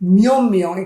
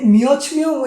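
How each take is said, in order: First: The first word ends with an m sound. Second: The first word ends with a t-like sound. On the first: The speaker calls it right. "উচ্চারণটা হবে কি মিয়ম মিয়ং" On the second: The speaker calls it wrong. "এখানে মিয়চ মিয়ং উচ্চারণটা হবে না"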